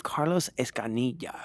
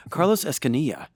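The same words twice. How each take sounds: First: "Carlos Escanilla" said with Spanish vowels, Escanilla as es-ka-NEE-ya; Spanish pronunciation. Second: "Carlos Escanilla" with English vowels, Escanilla as ES-kuh-nee-uh; "Escanilla" said the American way, with schwas and a hard r in Carlos; like a gringo. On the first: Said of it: "I gave that some extra flavor". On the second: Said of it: "like a gringo". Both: Shown as a demonstration.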